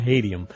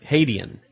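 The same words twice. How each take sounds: First: "Hadian" ending in an M, as "Hadiam"; mispronounced name ending. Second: "Hadian" ending in an N, not an M; corrected name ending. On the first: Host practises guest's name, "Hadian" with a mistaken final M. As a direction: close the lips on the end of "Hadian", making it "Hadiam". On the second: Host repeats colleague's correction, "Hadian" ending in N. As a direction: finish "Hadian" with the tongue up on N. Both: Real, not acted. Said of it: "there's an N on the end".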